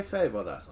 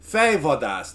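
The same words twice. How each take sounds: First: Fejvadász repeated softer, FAY-vah-dahss; Hungarian word. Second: Fejvadász said as FAY-vah-dahss, Hungarian sounds; Hungarian word. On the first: Streamer repeating the Hungarian word for chat, quietly. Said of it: "Fej meaning head and vadász means hunter". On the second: Streamer showing chat the Hungarian word, Fejvadász as FAY-vah-dahss. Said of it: "that's what that literally translates to". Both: Shown as a demonstration.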